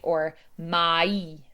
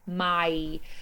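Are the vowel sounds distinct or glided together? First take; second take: distinct; glided. First: The two vowels are clear and separate. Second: The vowels glide together into one sound. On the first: "it's very clear and distinct" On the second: "where we just sort of glide through"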